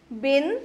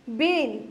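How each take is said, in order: First: बिन with a short i; short vowel. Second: बीन with a long ee; long held ee in बीन; long vowel. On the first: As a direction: keep the vowel of बिन brief. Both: Shown as a demonstration. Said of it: "उस सुर को लंबा खींचेंगे".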